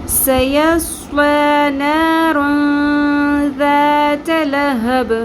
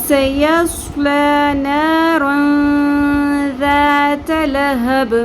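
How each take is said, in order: Both takes have the same delivery.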